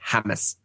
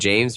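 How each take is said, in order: First: The name is said the way its owner says it. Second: The name is read as it is spelled. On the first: This is how the owner actually says the name. "but pronounces it James" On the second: This is how the name is written. "he spells his name James"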